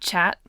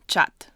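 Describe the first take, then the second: First: It is said with an English pronunciation. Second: It is said with a Russian pronunciation. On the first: The speaker calls it wrong. "not chat" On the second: The speaker calls it right. "but chat"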